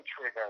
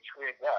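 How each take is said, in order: First: "trigger" with a hard R at the end; "trigger" as the other side says it, R pronounced; rhotic ending. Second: "trigger" in his own accent, no R at the end; dropped R. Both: Shown as a demonstration. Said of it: "we don't say trigger, we say trigger".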